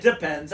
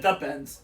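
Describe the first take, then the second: First: "depends" said as one word, louder; mishearing corrected. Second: "the pens" as article plus noun; intended wording. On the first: Correcting co-host's mishearing, "depends" as one word. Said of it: "I didn't say depends". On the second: Correcting co-host's mishearing, "the pens" as two words. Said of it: "I said the pens". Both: Shown as a demonstration.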